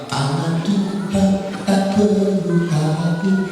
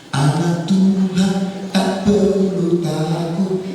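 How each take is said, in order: Both takes have the same delivery.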